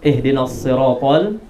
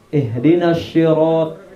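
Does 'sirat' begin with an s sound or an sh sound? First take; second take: s; sh. First: The word sirat begins with an s sound. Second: The word sirat begins with an sh sound. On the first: The speaker calls it right. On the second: The speaker calls it wrong.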